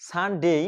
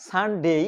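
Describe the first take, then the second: Both takes have the same delivery.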